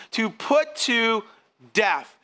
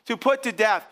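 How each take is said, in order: First: Slow, weighty "To put to death"; emphatic reading. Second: Said in the usual way. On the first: Shown as a demonstration. Preacher reading Paul's verse to the congregation, slow and emphatic. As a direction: lean hard on each word of "To put to death". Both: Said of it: "Theologians would say the emphatic".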